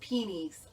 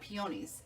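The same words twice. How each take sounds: First: The middle vowel is a reduced 'uh' sound. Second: The middle vowel is a full 'oh' sound. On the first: The speaker calls it right. "the way they pronounce it is like P E E U H N Y" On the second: The speaker calls it wrong. "I've always called it peonies, but I'm finding out that that's really not how you say it"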